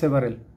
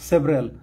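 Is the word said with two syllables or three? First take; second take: Three; Two. First: The word has three syllables, with a middle vowel. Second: The word has two syllables; the middle vowel drops. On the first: The speaker calls it wrong. "Not সেভারেল" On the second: The speaker calls it right.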